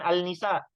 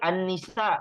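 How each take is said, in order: First: The article's l is clearly pronounced before n. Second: The article's l merges into the doubled n. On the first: The speaker calls it wrong. "bukan al-nisa" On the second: The speaker calls it right.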